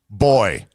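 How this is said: It is said the English way, like boy. "How would the English pronounce"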